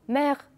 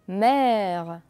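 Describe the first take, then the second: First: The vowel is a short closed e sound. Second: The vowel is a long open e sound. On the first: The speaker calls it wrong. "Je ne dis pas" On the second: The speaker calls it right. "C'est un et long"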